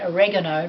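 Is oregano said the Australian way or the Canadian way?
Canadian. The word is said the Canadian way. "like every other Canadian"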